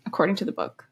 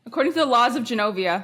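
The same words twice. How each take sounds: First: Said in the usual way. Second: Grand proclamation, brisk and quick; regal announcer voice. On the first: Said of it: "we should do it". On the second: Pretend. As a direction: announce it like royalty. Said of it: "I wanted to do the voice".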